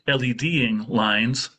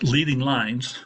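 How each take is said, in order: First: The first vowel is a short 'eh' sound. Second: The first vowel is a long 'ee' sound. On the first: The speaker calls it right. "it's actually LEDing lines" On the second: The speaker calls it wrong. "let me mispronounce this first"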